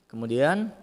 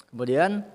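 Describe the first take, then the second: The two takes are said the same way.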